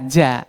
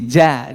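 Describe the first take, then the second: No difference in how they are said.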